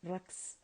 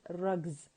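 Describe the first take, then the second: First: The word ends with a hissing s sound. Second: The word ends with a buzzing z sound. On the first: The speaker calls it wrong. "not rugs" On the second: The speaker calls it right. "you have to pronounce it as rugs"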